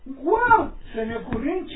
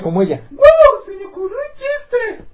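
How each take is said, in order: First: It is said in the speaker's own normal voice. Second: It is said in a put-on imitating voice.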